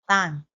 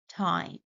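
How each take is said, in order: First: The first sound is a substituted non-English sound. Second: The first sound is an English t. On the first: The speaker calls it wrong. "they substitute a similar sound which exists in their native language" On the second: The speaker calls it right. "It should be time"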